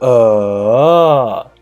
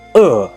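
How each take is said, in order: First: The pitch dips down and then rises. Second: The pitch falls sharply from high to low. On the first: "The third tone, it is uh" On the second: "Last tone, uh"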